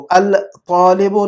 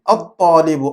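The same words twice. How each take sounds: First: الطالب said "al-taalib" with a clear L; lam wrongly sounded. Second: الطالب said "at-taalib", ط doubled; silent lam. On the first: Teacher showing what not to read, الطالب as "al-taalib". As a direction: sound the L before ط in الطالب, as the mistake. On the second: Teacher correcting how to read it, الطالب with silent lam, "at-taalib". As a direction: glide from "a" straight into a doubled ط in الطالب. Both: Shown as a demonstration. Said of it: "الطالب نہیں پڑھنا چاہیے ہم نے".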